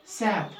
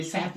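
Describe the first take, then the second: First: सेहत said loosely as written; common pronunciation. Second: सेहत with a stopped h; taught pronunciation. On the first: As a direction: let सेहत run easily, unpressed. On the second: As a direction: close on the ह before the त in सेहत. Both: Shown as a demonstration. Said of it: "थोड़ी जज़म डालनी चाहिए".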